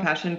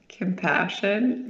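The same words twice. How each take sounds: First: The pitch falls at the end, like a statement. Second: The pitch rises at the end, like a question. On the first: The answer is settled and certain. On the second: The answer is tentative and uncertain. "Say that with a question mark"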